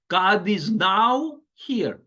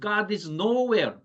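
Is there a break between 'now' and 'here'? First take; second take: yes; no. First: The break falls after 'now'. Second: The break falls after 'no'.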